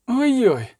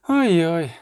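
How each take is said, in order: First: A higher, playful ой-ой. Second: Ой-ой in a changed, sultry-sounding colour; teasing oh-oh again. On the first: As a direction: tease him with ой-ой. (грайливе ой-ой) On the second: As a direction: repeat ой-ой as a lazy tease. (знову лукаве ой-ой) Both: A narrator's reading. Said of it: "сказала Єннефер".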